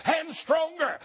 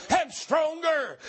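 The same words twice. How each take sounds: The two takes are said the same way.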